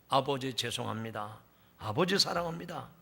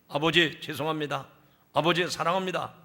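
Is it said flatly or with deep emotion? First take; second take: deep emotion; flatly. First: It is said tearfully, with deep emotion. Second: It is said flatly, without emotion.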